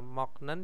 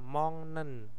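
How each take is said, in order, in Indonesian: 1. Bunyi hambat ada sebelum n. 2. Bunyi sengau ng ada sebelum n. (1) "moknen dibaca apa?" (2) "bacanya adalah eng"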